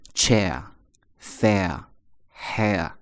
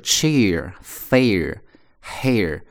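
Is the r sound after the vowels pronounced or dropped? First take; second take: dropped; pronounced. First: The r after each vowel is dropped, not curled. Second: The r after each vowel is curled and pronounced. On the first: "英国人读的时候呢不会卷舌头" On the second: "有字母R，都在卷舌头"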